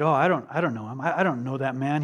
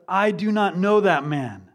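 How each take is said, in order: First: Said in the usual way. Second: Louder, deliberate oath with every word of "I do not know that man" stressed; emphatic denial. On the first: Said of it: "then he said". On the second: Acted. Peter swearing he doesn't know Jesus, emphatic denial. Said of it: "He said it emphatically. He swore".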